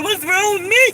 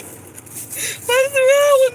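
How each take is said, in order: First: High, whiny pleading question; mock despair. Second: Much higher, very slow, stretched hammed-up sob; mock wailing cry. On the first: Complaining to viewers about never marrying, high whine. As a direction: ask it in a high fake-pitiful whine. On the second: Lamenting to viewers about being unmarried, hammed-up wailing cry. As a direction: wail it out like a fake crying fit.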